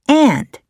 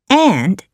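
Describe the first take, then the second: First: The vowel sounds like the one in pants. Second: The vowel sounds like the one in pants.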